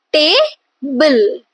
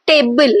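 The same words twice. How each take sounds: First: "table" split in two, stressed TA, pause, then bul; stressed first syllable. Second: Said in the usual way. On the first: Shown as a demonstration. Teacher showing students a trochee, first syllable stressed and separated. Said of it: "the first syllable is, uh, the stressed syllable". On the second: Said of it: "stressed syllable followed by unstressed syllable".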